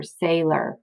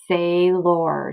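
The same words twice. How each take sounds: First: Said in the usual way. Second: "sailor" as drawn-out "say-lor", full "or"; "sailor" with both syllables given full weight; split into syllables. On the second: Shown as a demonstration. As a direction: sound out "sailor" slowly in two even parts. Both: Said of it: "split it right there".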